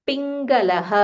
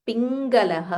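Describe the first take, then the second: No difference in how they are said.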